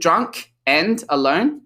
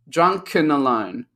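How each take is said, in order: First: The word 'and' is pronounced fully and separately. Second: The word 'and' is reduced and linked. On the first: "instead of saying" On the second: "we say drunken alone"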